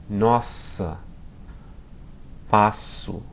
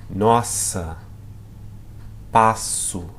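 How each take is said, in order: No difference in how they are said.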